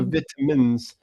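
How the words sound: It is said in a British pronunciation. "the U K would just go for vitamins"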